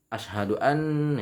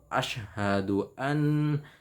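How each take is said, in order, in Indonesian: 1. Sebagian bunyi dalam frasa ini kabur atau hilang. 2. Setiap bunyi dalam frasa ini diucapkan dengan jelas. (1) "itu enggak jelas itu" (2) "itu harus jelas"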